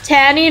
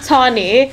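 First: Tanny said with a flat "a" as in "tan"; insisting on Tanny; right name Tanny. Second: Tawny said with "aw" as in "saw"; mock the wrong Tawny; quoting the mistaken Tawny; wrong name Tawny. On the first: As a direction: correct it firmly to Tanny. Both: Shown as a demonstration. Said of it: "It's Tanny, not Tawny".

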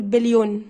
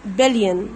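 First: بليون with a long "yoon"; wrong pronunciation. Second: بليون as "BEL-yen", falling; low, clear بليون with no o; correct English pronunciation. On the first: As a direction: say "bel-YOON", the O sounded. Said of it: "مين العبيط اللي بيقول بليون". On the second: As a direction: model "BIL-yn", ending reduced. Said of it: "اسمه". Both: Shown as a demonstration.

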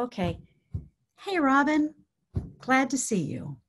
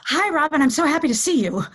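First: Easy, unhurried hello after settling; composed friendly greeting. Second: Loud, high, rushed hello; over-bright tense greeting. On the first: Caregiver greeting Robin once settled, composed and friendly. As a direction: greet gently, with a small lift on the name. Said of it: "That's what we wanna come in with". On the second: Caregiver greeting Robin after a stressful morning, over-bright. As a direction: gush a hurried, too-loud greeting. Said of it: "is not what's coming across". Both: Shown as a demonstration.

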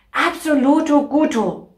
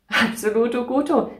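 First: Playful excited. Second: Said in the usual way. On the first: Acted. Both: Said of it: "playful repeated phrase".

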